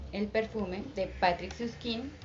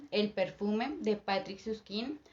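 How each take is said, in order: Both takes have the same delivery.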